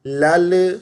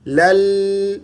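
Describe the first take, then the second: First: لل with an echoing bounce on the laam; wrong qalqala. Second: لل with the laam held slightly longer; stretched laam. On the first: Teacher demonstrates the qalqala mistake. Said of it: "لام پر قلقلہ کر دیتے ہیں". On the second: Teacher shows the correct slightly stretched laam. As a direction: draw out the laam in لل a little. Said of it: "لام کو تھوڑا سا کھینچ دینا ہے". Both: Shown as a demonstration.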